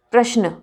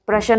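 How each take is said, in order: First: प्रश्न as "prash-na", श्न joined; no vowel between श and न in प्रश्न; correct प्रश्न. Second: प्रश्न as "pra-shan"; wrong प्रश्न. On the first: (प्रश्न, श्न संयुक्त) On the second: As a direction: put a vowel between श and न in प्रश्न. (प्रश्न को प्रशन जैसा) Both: Shown as a demonstration. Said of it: "प्रश्न नहीं".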